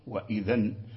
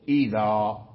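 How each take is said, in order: First: The word ends in an n sound. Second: The word ends in a long a vowel. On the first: The word is not said at a pause. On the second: The speaker is pausing on the word.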